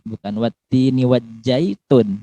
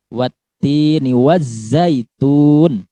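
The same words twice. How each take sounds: First: "wajjaitun" with a j instead of z; wrong j sound. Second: Slow recitation, "wazzaitun" with a clear voiced z. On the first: ("wajjaitun" dibaca salah dengan j) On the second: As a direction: say "wazzaitun" slowly, z buzzing. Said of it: "ini pakai za". ("wazzaitun" dengan z yang jelas dan lambat) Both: Shown as a demonstration.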